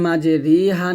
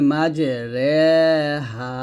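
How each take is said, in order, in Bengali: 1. r-এর পরের সিলেবলের স্বরধ্বনি 'ee'। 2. r-এর পরের সিলেবলের স্বরধ্বনি 'ay'। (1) "মাঝে রিহা না বলে" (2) "বলতে হবে মাঝে রেহা"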